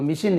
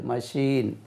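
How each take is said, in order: First: "மெஷின்" with a short first vowel, as "mishin"; wrong pronunciation. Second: "மெஷின்" as ma-SHEEN, long second vowel; correct pronunciation. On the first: Teacher showing learners the mistake, mispronounced "மெஷின்" as mishin. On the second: Teacher correcting learners, "மெஷின்" pronounced ma-sheen. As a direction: say "மெஷின்" with an open "ma" and drawn "sheen". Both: Shown as a demonstration. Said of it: "உச்சரிப்பு மெஷின் இல்ல".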